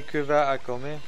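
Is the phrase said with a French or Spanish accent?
French. It is said with a French accent.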